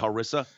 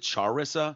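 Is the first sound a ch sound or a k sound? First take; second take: k sound; ch sound. First: It begins with a k sound. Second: It begins with a ch sound.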